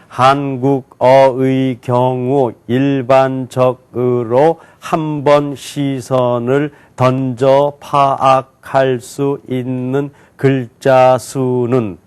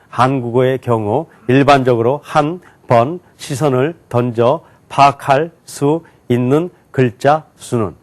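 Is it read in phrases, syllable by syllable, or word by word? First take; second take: syllable by syllable; word by word. First: Each syllable is read separately and slowly. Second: Each word is read separately, a little faster. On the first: "한자 한자씩 또박또박 읽겠습니다" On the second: "한 단어씩 했어요. 그러니까 좀 빨리 했습니다"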